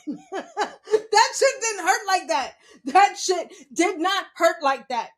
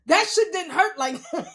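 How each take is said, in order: First: Higher, slow, laughing hard. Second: Louder, laughing disbelief. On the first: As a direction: stretch it out laughing. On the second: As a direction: say it amazed and amused. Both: Real, not acted. Laughing about the fall.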